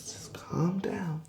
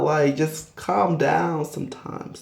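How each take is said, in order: First: Whispered, slow and soft; whispering. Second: Said in the usual way. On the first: Acted. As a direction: hush it out in a whisper. Telling her to calm down.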